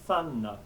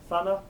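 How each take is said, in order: First: The n in the middle is held long. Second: The n in the middle is short. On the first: The speaker calls it right. "but thanna" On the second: The speaker calls it wrong. "not thana"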